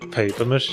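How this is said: The first word sounds like English 'paper'.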